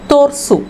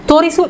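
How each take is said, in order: First: The middle i vowel is dropped. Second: The middle i vowel is clearly pronounced.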